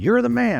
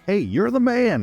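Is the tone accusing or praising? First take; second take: accusing; praising. First: It sounds like a serious accusation. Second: It sounds like a casual, friendly compliment.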